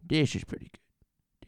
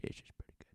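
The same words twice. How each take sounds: First: Slow, louder declaration; louder take. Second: Same words whispered; whispered take. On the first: Host declares the sound good, slow and louder. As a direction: say it out loud and satisfied. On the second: Host whispers the same verdict to himself. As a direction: whisper it to yourself. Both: Shown as a demonstration.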